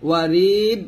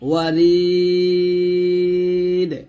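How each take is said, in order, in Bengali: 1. শেষের d সমতলভাবে থেমে যায়, কোনো ঝাঁকুনি ছাড়া। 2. শেষের d একটি প্রতিধ্বনিত ঝাঁকুনি দিয়ে শেষ হয়। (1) "বলবেন না" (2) "এরকম ভাবে ওয়াকফ ধরে কলকল করব"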